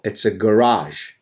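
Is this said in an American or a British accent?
American. It is said in an American accent. The speaker calls it right.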